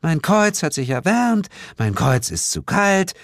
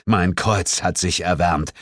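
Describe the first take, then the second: First: High, exaggerated parody; theatrical mockery. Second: Said in the usual way. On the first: A narrator's reading. Sheila mocking the narrator's cross announcement, high and theatrical. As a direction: mimic his announcement in a silly high voice. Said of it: "während sie theatralisch mit den Händen wackelte". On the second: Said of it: "sagte ich".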